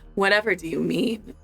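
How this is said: It is said in a sultry, seductive voice.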